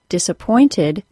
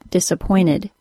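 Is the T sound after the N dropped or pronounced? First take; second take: pronounced; dropped. First: The T after the N is clearly pronounced. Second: The T after the N is left out.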